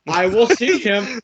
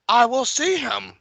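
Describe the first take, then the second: First: High, loud, slow feeble king; loud old king voice. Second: Put-on high, slow old man voice; frail old king voice. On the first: Acted. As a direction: bellow it like a doddering old king. Repeats old king impression louder. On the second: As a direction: quaver it like a feeble old king. Voicing old king Viserys.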